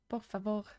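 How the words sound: It is said with a strong French accent. "I said por favor with the most French accent I've ever used"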